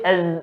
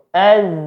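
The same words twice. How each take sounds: First: The z sound is held back and cut short. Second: The z sound flows on without stopping. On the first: The speaker calls it wrong. "Kalau ditahan sedikit az, agak tersendat" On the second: The speaker calls it right. "Kalau dia alir kan dia baru az"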